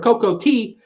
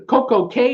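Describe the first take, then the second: First: The last word rhymes with 'see'. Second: The last word rhymes with 'day'. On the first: "you pronounce it Key" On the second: "It's pronounced K"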